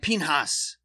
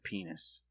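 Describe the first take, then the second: First: The first syllable sounds like 'pin'. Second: The first syllable sounds like 'pea'. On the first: This is how the name might sound in German. "in German, I would imagine it sound like Pihnas" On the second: This is how the name is said in the film. "the traditional way is just to straight up pronounce it penis"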